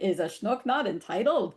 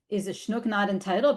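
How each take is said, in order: First: It has imitated Yiddish-style pronunciation and pitch. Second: It has plain everyday pronunciation and pitch. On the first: The words are marked as not the speaker's own language. "their phonology and their intonation... is very much an imitation" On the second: The words are spoken as the speaker's own language. "they could have just said"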